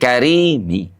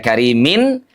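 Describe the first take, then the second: First: The word ends with a faint, short 'i'. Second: The word ends with a full 'in' sound. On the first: The speaker calls it right. "tapi karimi ... tanwinya jadi hilang" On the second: The speaker calls it wrong. "Tidak karimin"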